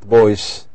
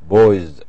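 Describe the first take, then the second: First: The word ends with a hissing s sound. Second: The word ends with a buzzing z sound. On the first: The speaker calls it wrong. "not boys" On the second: The speaker calls it right. "the pronunciation is Z"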